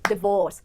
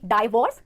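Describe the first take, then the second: First: The first syllable sounds like 'dee'. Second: The first syllable sounds like 'dye'. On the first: The speaker calls it right. "the stress will fall on the second syllable" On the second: The speaker calls it wrong. "ना कि डाइवोर्स"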